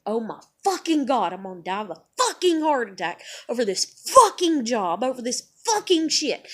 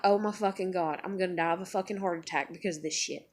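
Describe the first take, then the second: First: Forceful, punched curse words; exasperated rant. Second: Quiet, low, quick muttering; subdued dread. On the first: Fretting about a heart attack, forceful and exasperated. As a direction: hammer each expletive harder. Same panic line, then forceful. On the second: Fretting about a heart attack, low subdued mutter. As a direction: mutter it to yourself. Same panic line, first quiet. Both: Retold or imitated.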